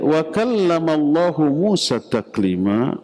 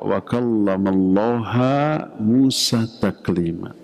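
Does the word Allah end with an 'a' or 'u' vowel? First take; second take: u; a. First: The word Allah ends with a 'u' vowel. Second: The word Allah ends with an 'a' vowel. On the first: God is the one who speaks to Moses. The speaker calls it right. "artinya Allah berbicara kepada Nabi Musa dengan sebenar-benarnya" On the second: Moses is the one who speaks to God. The speaker calls it wrong. "Allahnya dibaca ha mansub karena dia maf'ulun bih atau objek"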